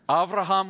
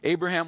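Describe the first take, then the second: First: The name is pronounced the Hebrew way. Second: The name is pronounced the usual English way.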